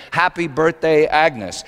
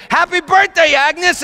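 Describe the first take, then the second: First: Said in the usual way. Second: High, loud party shout; screamed greeting. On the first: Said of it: "a big sign that said". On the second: Acted. Party guests greet Agnes as she arrives, screaming. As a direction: shout it like a whole crowd at once. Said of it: "They all screamed".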